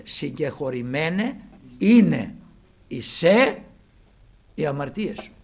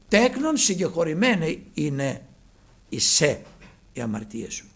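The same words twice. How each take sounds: First: Συγκεχωρημένε είναι drawn out slowly, stress on είναι; slow corrected reading. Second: Τέκνον intoned with a falling close; quoted scripture. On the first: Preacher correcting the verse for the congregation, slow and deliberate. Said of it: "προσέξτε". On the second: Preacher quoting Christ to the paralytic, solemnly intoned. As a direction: read out Τέκνον, συγκεχωρημένε είναι as solemn scripture. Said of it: "Όχι θα είναι, προσέξτε". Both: Shown as a demonstration.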